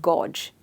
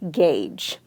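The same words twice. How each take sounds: First: The vowel is not an 'ay' sound. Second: The vowel is an 'ay' sound. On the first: The speaker calls it wrong. "you will not pronounce it as gauge" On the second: The speaker calls it right. "You will clearly say gauge"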